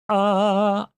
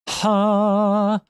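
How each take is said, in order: First: The vowel starts with a glottal catch. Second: The vowel starts with a sudden, sharp h. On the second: "Aspert abrupt"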